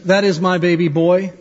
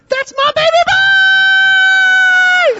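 First: It is said in a flat, plain way. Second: It is said with proud excitement.

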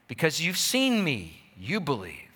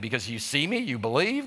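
First: It is a plain statement, falling at the end. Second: It is a mocking question, rising at the end.

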